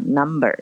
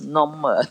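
First: It is said in a plain, unaccented English way. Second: It is said with an Indian English accent. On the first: The speaker calls it wrong. "你不能讲number" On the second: The speaker calls it right. "你要讲number"

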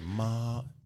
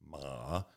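First: The pitch stays high and level. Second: The pitch dips down and comes back up. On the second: "Third tone, the dipping tone"

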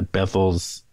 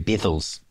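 First: It is said in the speaker's own accent. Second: It is said imitating the locals' New Zealand accent.

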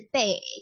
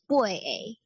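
First: It is said with a Zhangzhou accent. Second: It is said with a Quanzhou accent. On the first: "我念的应该是漳州腔" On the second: "刚刚[name]念的是八诶"

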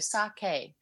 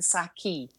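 First: The last syllable rhymes with 'okay'. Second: The last syllable does not rhyme with 'okay'. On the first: The speaker calls it right. "so kind of like okay, so sake rather than" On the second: The speaker calls it wrong. "rather than sake"

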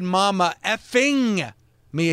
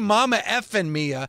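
First: The G at the end of effing is held. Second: The G at the end of effing is dropped. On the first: "He made sure he hung on that G at the end of effing" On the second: "He didn't say Mamma effing Mia"

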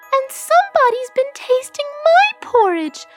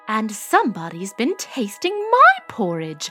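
First: It is said in a high, squealing voice. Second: It is said in a middle-pitched voice.

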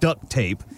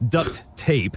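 First: The t at the end of duct is dropped. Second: The t at the end of duct is clearly pronounced. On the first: The speaker calls it wrong. "It's not duct tape" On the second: The speaker calls it right. "it's important to enunciate"

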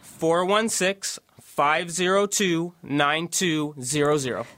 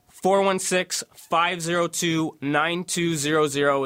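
First: The number is said slowly. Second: The number is said at normal speed.

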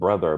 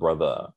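First: The word ends with an r-colored 'er' sound. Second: The word ends with an open 'uh' sound. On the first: This is not how the handle is spelled. The speaker calls it wrong. "not brother" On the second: This is how the handle is spelled. The speaker calls it right. "but brother, B-R-O-T-H-A"

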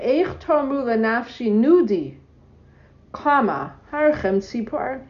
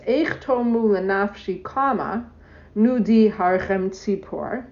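First: The break comes after Nudi. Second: The break comes after Lenafshi.

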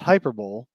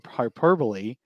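First: The word is said as spelled, letter by letter. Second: The word is said with its standard pronunciation. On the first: The speaker calls it wrong. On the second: The speaker calls it right.

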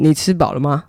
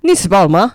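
First: It has the Pingtung Hakka-style level melody. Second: It has the Miaoli Hakka-style strongly rising melody.

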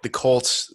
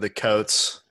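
First: The word is said with a clear L sound. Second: The L is dropped in a Southern accent. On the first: "he'd pronounce words like the Colts" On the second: "That would turn into the Coats"

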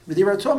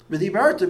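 First: The stress falls on the final syllable ta. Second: The stress falls on the syllable bar. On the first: You should speak. "means you should speak" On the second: You spoke. "means that you spoke"

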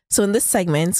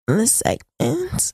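First: It is said in a plain, normal voice. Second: It is said in a sultry, close whisper.

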